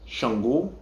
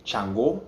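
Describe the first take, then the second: First: Yoruba "Shango", SH at the front; S H pronunciation. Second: "Chango" with a hard ch; C H pronunciation. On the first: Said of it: "instead of a S H". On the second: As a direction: Lukumi "Chango", CH at the front. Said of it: "replaced with a C H". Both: Shown as a demonstration.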